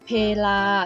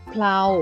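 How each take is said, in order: First: The word is split into two syllables. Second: The word is one syllable with a blended cluster. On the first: It means time or occasion. "ให้อ่านออกเสียงว่าเพลาซึ่งหมายถึงการคราวหรือเวลา" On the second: It means an axle. "ให้อ่านออกเสียงแบบคำควบกล้ำแท้ค่ะ"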